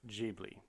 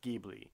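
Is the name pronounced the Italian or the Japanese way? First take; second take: Japanese; Italian. First: The name is said with Japanese pronunciation. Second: The name is said with Italian pronunciation. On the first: "the Japanese pronounce it Ghibli" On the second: "in Italian, it's Ghibli"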